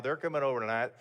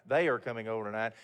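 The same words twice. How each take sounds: First: Said in the usual way. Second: They and are said apart and leaned on, quickly; stress on they and are. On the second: Retold or imitated. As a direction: spell out they are as two clear words, fast.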